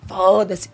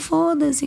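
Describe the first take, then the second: First: It is said in a harsh, hostile tone. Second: It is said in a warm, gentle tone. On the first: It rejects the other person with anger. The speaker calls it wrong. "Não é assim" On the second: It lets the criticism go without anger. The speaker calls it right. "é um foda-se com amor"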